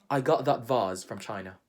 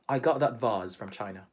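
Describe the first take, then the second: Both takes have the same delivery.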